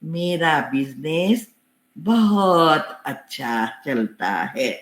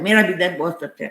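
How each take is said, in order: First: It is said slowly, with a steady rhythm. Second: It is said quickly, without a steady rhythm. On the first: The speaker calls it right. "Rhythm के साथ" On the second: The speaker calls it wrong. "ऐसा नहीं"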